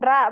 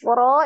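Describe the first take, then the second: First: The vowel is light and sounds like a. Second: The vowel is heavy and sounds like o. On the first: The speaker calls it wrong. "jangan ra bacanya" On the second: The speaker calls it right. "huruf ro ini"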